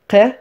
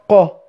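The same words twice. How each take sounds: First: The syllable sounds light and thin. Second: The syllable sounds heavy and deep. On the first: The speaker calls it wrong. "on va pas dire qa" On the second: The speaker calls it right. "Ils vont être graves"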